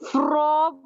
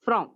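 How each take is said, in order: First: The word is said with strong stress. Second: The word is said with weak stress.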